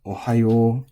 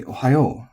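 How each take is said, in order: First: "Ohayo" held level, no accented syllable; an even, accentless Ohayo; flat pitch accent. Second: Extra energy on the last syllable of "Ohayo"; Ohayo with its ending accented; final-syllable accent. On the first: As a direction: keep Ohayo flat to the end. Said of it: "this word is flat. It's". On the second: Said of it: "energy to be put on the last syllable". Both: Shown as a demonstration.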